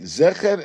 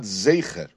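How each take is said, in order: First: The first vowel is a short plain 'e'. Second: The first vowel is a longer 'ei' sound. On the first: The speaker calls it right. "we say the zayin with a segol and not with a tzeirei" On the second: The speaker calls it wrong. "and not with a tzeirei"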